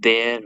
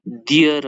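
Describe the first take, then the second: First: The vowel sounds like 'air'. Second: The vowel sounds like 'ear'. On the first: The speaker calls it right. "देयर हो है" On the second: The speaker calls it wrong. "डियर होइन"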